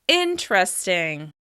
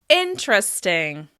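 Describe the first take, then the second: No difference in how they are said.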